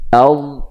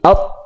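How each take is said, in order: First: The final consonant is prolonged and drawn out. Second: The final consonant stops abruptly and short. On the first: The speaker calls it right. "Tapi dia memanjang, suaranya memanjang" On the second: The speaker calls it wrong. "Bukan mati, out, it, ut, enggak"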